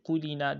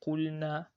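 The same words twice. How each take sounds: First: QULINA with an i vowel after the L; added kasra. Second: QULNA with a clear vowelless L straight into NA; L with sukun. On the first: Teacher warning against a mistake, "qulina" with a vowel added to the L. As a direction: slip an "ee" between L and N: "qulina". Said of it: "Do not say qulina". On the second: Teacher giving the example, "qulna" with L and N kept distinct. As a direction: sound the L in "qulna" with no vowel after it. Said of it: "Make it take it sukun". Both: Shown as a demonstration.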